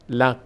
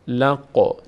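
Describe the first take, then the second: First: The final q stops flat with no echo. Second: The final q ends with a slight echoing bounce. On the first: The speaker calls it wrong. "نمیگیم لق، لق. ببینید الان لق هیچ حرکتی نکرد" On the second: The speaker calls it right. "قا یک مقداری که انگار در مخرج میلرزه"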